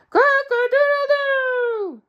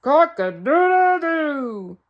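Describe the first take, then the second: First: High, loud, slow full crow; real rooster crow. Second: Loud, slow, half-hearted crow; a man's clumsy attempt at crowing; man trying to crow. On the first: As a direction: show him how a rooster really crows. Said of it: "Now listen to me". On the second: Mister Flibbertigibb trying to crow for the rooster, slowly. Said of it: "Listen to me try it". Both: Shown as a demonstration.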